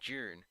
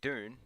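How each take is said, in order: First: The word begins with a J sound. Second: The word begins with a clear D sound. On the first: "if I say it with my natural accent, it sounds like I'm saying the June" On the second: "if I say it Dune, no one knows what I'm talking about"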